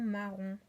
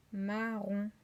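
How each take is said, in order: First: Said in the usual way. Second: "Marron" split as ma, ron; slow, even syllables in "Marron". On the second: Shown as a demonstration. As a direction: stretch "Marron" into two held beats. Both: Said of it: "première syllabe".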